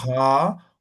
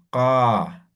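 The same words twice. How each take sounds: First: "Ka" with a breathy puff of air after the k; aspirated ka. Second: "ka" with a clean unaspirated k, no puff of air; plain ka. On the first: Teacher modeling the aspirated Aymara k, breathy "Ka". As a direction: push air out on the k of "Ka". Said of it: "Y de ahí mismo la aspirada". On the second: Teacher modeling the plain k to students, unaspirated "ka". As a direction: say "ka" simply, with no breath after the k. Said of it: "Simple es ka". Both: Shown as a demonstration.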